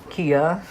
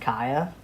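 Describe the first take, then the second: First: The first vowel sounds like 'ee'. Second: The first vowel sounds like 'eye'. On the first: The speaker calls it right. "his name is pronounced Kia" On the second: The speaker calls it wrong. "I thought his name was pronounced Kaya"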